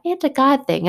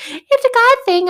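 First: Said in the usual way. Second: Squeaky, much higher sing-song mimicry of mom; mocking mom. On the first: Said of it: "My mom always says that". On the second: Daughter mocking her mom's saying in a high squeaky voice. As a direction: parrot her catchphrase in a silly high voice. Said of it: "I used to get so irritated when she's like".

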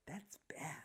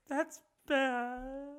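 First: Barely audible whisper; mock objection with no force behind it; half-hearted whispered scolding. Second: High, soft, stretched-out weepy wail; hammed-up tearful whimper; mock crying. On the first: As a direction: whisper a token disapproval. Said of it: "It's kinda like that". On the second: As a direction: imitate him crying over it. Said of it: "Crying, dude".

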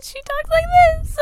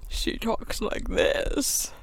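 First: Put-on much higher squeaky girl voice; high Sophie voice. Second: Slow, soft whispered try at the voice; whispery Sophie voice. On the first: Player tries out Sophie's voice, much higher and squeaky. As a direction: pitch it way up like a little girl. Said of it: "I should try to do a voice". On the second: Player tries a second Sophie voice, slow and whispered. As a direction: breathe it out slowly, barely voiced. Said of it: "I'm trying my best". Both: Shown as a demonstration.

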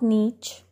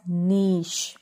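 First: "niche" as NEECH, long ee and CH; wrong pronunciation. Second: "niche" as NEESH; correct SH ending. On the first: Teacher warning learners off niche as NEECH. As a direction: say "niche" ending like "beach". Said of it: "It is not". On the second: Teacher correcting learners, niche as NEESH. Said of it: "It is pronounced as". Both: Shown as a demonstration.

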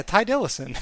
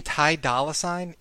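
First: "Ty Dillison", higher, as if it were an ordinary surname; oblivious misreading, "Ty Dillison", pitched up; mispronounced name. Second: "Ty Dolla Sign" said as three separate words; quoted correction, "Ty Dolla Sign"; correcting pronunciation. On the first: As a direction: confidently botch Ty Dolla Sign as "Ty Dillison". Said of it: "I can't say his name without laughing". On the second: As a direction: spell out the name clearly, "Ty Dolla Sign", ending on a full "Sign". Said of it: "and [name] goes". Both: Retold or imitated.

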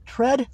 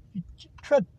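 First: "Tread" said fully, with a clear r; corrected pronunciation. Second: "tread" comes out as "ted", with the r dropped; struggling pronunciation. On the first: After asking how it's said, he gets "Tread" right. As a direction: land "Tread" cleanly, r and all. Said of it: "tread, how do you say that?". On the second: Toothless man stumbling over "tread", r dropped. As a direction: fumble "tread" and lose the r sound. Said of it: "my teeth are gone". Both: Real, not acted.

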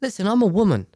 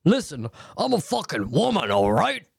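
First: Straightforward firm assertion, raised pitch; suggested better way. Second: Over-the-top indignant demand, pitch swooping up and down; hammed-up, confrontational swooping delivery; aggressive wrong way. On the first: Showing a listener how to tell him, firm and direct. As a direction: assert it plainly, without the swooping theatrics. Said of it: "Say it like". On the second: Advising a listener how not to confront him, mock aggressive. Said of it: "Don't say it like that". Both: Shown as a demonstration.

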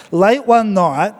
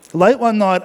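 First: Slow, drawn-out "Late one night"; slow storyteller opening. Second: Said in the usual way. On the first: Shown as a demonstration. Pastor starting his joke to the church, slow and drawn out. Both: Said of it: "Let me try something".

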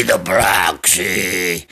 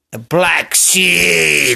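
First: Much lower, very slow, a hint of a sob; hammed-up tearful low drawl; mock mournful. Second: Slow dramatic drawl; drawn out. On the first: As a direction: let it sink into a fake lament. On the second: Acted. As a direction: linger over each word. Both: Repeated phrase for effect.

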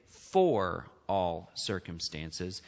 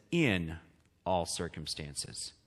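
First: "for" drawn out low and slow; low, slow contrast on the word "for"; stress on FOR. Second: "in" set apart, then a pause; low, soft, deliberate "in", pause before the rest; stress on IN. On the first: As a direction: set "for" apart, low and deliberate. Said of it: "it does not say". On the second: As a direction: land on "in", then drop softer and slower. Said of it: "It says". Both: Shown as a demonstration.

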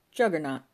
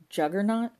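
First: "Juggernaut" stated loudly with a falling tune; matter-of-fact statement. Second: "Juggernaut" loud and high, rising at the end; incredulous question. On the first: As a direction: say "Juggernaut" as a firm explanation, dropping at the end. Paul offers his explanation. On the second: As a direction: throw "Juggernaut" back as an outraged question. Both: A narrator's reading.

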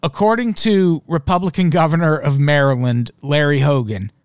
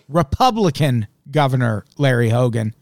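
First: Said in the usual way. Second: REPUBLICAN stressed and set apart from "Governor Larry Hogan"; pointed repeat. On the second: Shown as a demonstration. Host making listeners savour it, pointed stress on "Republican". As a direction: lean on "Republican", then space out the rest. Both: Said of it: "swish that around in your head again".

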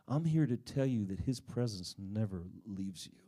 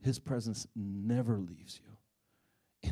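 First: Said in the usual way. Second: Slow, deliberate repeat of the key line; slow emphasis. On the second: Real, not acted. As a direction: lean on every word, slowly.

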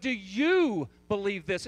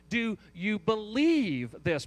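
First: "you" drawn out and louder; slow question landing hard on "you"; stress on YOU. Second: "believe" stretched and swelling louder; slow question leaning hard on "believe"; stress on BELIEVE. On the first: Preacher contrasting you with believing relatives, stress on YOU. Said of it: "The inflection on the "you". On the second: Preacher pointing out where the emphasis is, stress on BELIEVE. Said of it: "Perhaps that's where the emphasis is". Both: Shown as a demonstration.

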